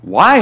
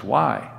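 First: Loud, higher incredulous why; exclaimed. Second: Soft, lower-pitched puzzled why; low-key question. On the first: Photographer echoing the pilot's question in disbelief, exclaimed. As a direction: throw the question back as an exclamation. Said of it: "exclaimed the photographer". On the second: Pilot questioning the photographer's order, low-key question. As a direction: ask it quietly and simply. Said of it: "The pilot asked". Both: A narrator's reading.

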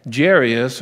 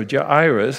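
First: Jairus said as jair-EE-us, stress on the middle syllable; Jairus pronounced one way. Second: Jairus said as JY-rus, stress on the first syllable; Jairus pronounced the other way. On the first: Preacher offering one way to say Jairus: jair-EE-us. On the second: Preacher offering the other way to say Jairus: JY-rus. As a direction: Jairus as JY-rus, falling at the end. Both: Shown as a demonstration. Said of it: "however you want to pronounce his name".

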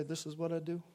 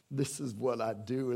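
First: Quiet calm claim. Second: Said in the usual way. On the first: Acted. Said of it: "what Jesus can say". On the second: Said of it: "is what he says".

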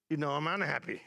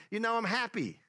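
First: Understated unhappy tone, falling at the end; mildly unhappy. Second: Higher, upbeat lift on happy. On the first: Preacher explaining the open bracket, mildly unhappy. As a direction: let it drop, a touch glum. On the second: Preacher explaining the smiley to the congregation, happy. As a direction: say it cheerfully, pitched up. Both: Shown as a demonstration. Contrasting happy and unhappy emoticons.

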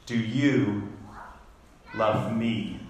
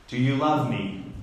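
First: "Do you", a long pause, then "love me" lower. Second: Said in the usual way. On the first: Acted. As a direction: break after "you" and let "love me" sink. Repeats Jesus's question, broken up.

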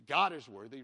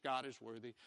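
First: "God" thrown out loud and rising; emphatic declaration. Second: Said in the usual way. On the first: Acted. Preacher stating his main point to the church, "God" loud. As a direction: punch out "God is worthy" with a loud "God".

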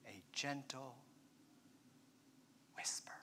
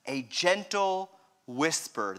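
First: Barely audible, low and halting; near-silent whisper. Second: Soft, slow, low spoken voice; subdued. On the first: Acted. Preacher acting out God's gentle whisper, whispered. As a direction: breathe it out very softly, pausing before the last word. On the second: Real, not acted. Preacher asking why God came so gently, subdued. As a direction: say it gently aloud, slowly, without whispering. Repeats the phrase in voiced question.

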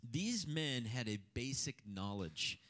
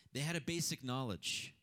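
First: "these men had a basic knowledge" said slowly, each word weighted; slow emphasis. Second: Said in the usual way. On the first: Shown as a demonstration. Preaching the first point to the congregation, slow and deliberate. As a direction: lean on "these" and slow the whole phrase.

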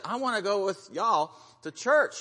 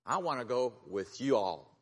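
First: "y'all" run into one syllable; contracted "y'all", punched up playfully; Southern "y'all". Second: "you all" as two separate words; careful "you all". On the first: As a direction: say "y'all" as one word, high and loud. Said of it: "she didn't say y'all". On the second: Retold or imitated. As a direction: say "you all" uncontracted, "you" then "all". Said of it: "She probably didn't say y'all".

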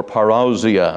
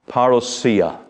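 First: "parousia" as pa-ROW-zia, ROW rhyming with cow; UK pronunciation. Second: "parousia" as parra-SEE-a, stress near the end; alternative pronunciation. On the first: Preacher shows how they say it in the UK, UK pronunciation. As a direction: say "parousia" with stressed OW and a z. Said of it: "as we say in the U K". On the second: Preacher gives the term used, alternative pronunciation. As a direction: say "parousia" with an s sound and a SEE syllable. Two pronunciations offered side by side. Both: Shown as a demonstration.

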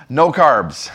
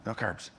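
First: Said in the usual way. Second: Very soft, lower mock acceptance; subdued echo. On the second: Intern taking pastor's diet order, subdued echo. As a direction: repeat it under your breath, resigned. Intern meekly echoes the demand.

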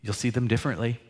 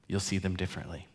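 First: Said in the usual way. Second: "You'll see them differently." echoed much softer and quicker; soft fast repeat. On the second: Real, not acted. Pastor echoing to congregation, soft and quick. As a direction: let the repeat fall away softly.

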